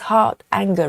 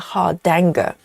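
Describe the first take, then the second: First: The first part ends, then 'anger' starts separately. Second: The D sound is carried over to start 'danger'. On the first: The speaker calls it right. "heart anger rather" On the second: The speaker calls it wrong. "with a D sound"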